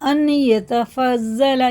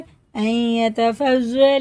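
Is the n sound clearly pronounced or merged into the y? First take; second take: clear; merged. First: The n is pronounced clearly before the y. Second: The n merges into the following y sound. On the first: The speaker calls it wrong. "ये गलत हो जाएगा" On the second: The speaker calls it right. "इसकी नून की जगह इस या को लगा के पढ़ेंगे।"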